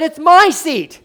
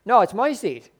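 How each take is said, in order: First: Higher, louder usher yelling it's his seat. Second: Said in the usual way. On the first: Retold or imitated. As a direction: bark it out, possessive and indignant. Usher repeats, now much louder.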